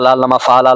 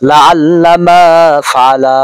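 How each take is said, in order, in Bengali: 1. শেষের দীর্ঘ স্বরধ্বনিগুলো ছোট করে পড়া হয়। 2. শেষের দীর্ঘ স্বরধ্বনিগুলো সুর দিয়ে টেনে পড়া হয়। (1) "লা আল্লামার যে একটা শেষে আলিফ রয়েছে এটা আমরা অনেকে উচ্চারণই করি না" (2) "একটু টান দিয়ে পড়ায়"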